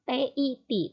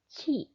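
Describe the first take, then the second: First: It begins with a plain t sound. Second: It begins with a ch sound. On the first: The speaker calls it wrong. "dibacanya bukan ti" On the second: The speaker calls it right. "tapi ci"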